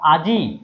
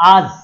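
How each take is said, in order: First: The word ends with an 'i' vowel sound. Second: The word ends on a consonant, no final vowel. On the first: "ইটা কোথায় উচ্চারণ হচ্ছে? শেষে।" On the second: "এই শেষে ইটা নাই"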